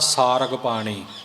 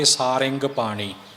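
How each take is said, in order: First: The second syllable is rag, without any nasal. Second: The second syllable is ring, nasal with i vowel. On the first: "ਟਿੱਪੀ ਤੋਂ ਬਿਨਾਂ" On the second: "ਸਿਹਾਰੀ ਅਤੇ ਨਾਲ ਟਿੱਪੀ ਲਾ ਕੇ"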